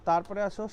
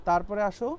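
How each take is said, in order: No difference in how they are said.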